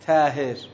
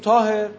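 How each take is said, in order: First: The first consonant sounds thin, like a plain t. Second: The first consonant sounds heavy, with an emphatic quality. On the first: The speaker calls it wrong. "نمیگیم طاهر، افقی نمیگیم" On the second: The speaker calls it right. "میگیم طاهر"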